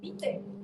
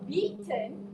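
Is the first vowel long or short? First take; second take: short; long. First: The first vowel is shortened. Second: The first vowel is long. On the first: The speaker calls it wrong. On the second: The speaker calls it right.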